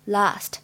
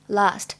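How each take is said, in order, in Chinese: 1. 这个元音是长的后元音 'ah' 音。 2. 这个元音是长的后元音 'ah' 音。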